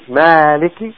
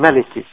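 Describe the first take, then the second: First: The first vowel is long. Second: The first vowel is short. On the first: "Sometimes you read it with Alif" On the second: "and sometimes you don't read it with Alif"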